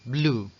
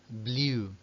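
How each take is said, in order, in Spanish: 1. La vocal es un sonido 'oo' simple. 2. La vocal empieza con un deslizamiento tipo 'ee'. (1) "lo normal es que se escuche blue, sí, igual que el color" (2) "Aquí podéis pronunciarlo con una I"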